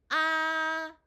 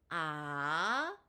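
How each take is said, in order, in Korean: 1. 음높이가 높고 평평하게 유지됩니다. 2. 음높이가 중간에서 높게 올라갑니다.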